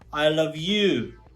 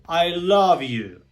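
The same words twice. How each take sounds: First: The word you carries the stress. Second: The word love carries the stress. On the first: This particular person is the one loved. "it is you, the person that I love" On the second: The feeling is strong enough to be called love. "my feelings to you are so strong that I can describe it as loving"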